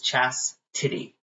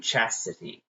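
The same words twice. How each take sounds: First: The name is said with a t sound. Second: The name is said without a t sound. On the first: The speaker calls it right. "That's that's the correct way to say my name" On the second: The speaker calls it wrong. "Some people forget the T"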